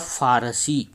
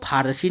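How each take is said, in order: First: It begins with an f sound. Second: It begins with an aspirated ph sound. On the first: The speaker calls it right. "इसका जो सही उपयोग होगा वह होगा फारसी" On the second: The speaker calls it wrong. "इसको फारसी नहीं कहेंगे"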